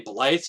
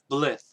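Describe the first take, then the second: First: The vowel is a long 'eye' sound. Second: The vowel is a short 'i' sound. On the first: The speaker calls it wrong. "I used to say Blythe just because of the Y rule. That the Y makes an all a strong I" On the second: The speaker calls it right. "But apparently I've been corrected. It's pronounced Blith"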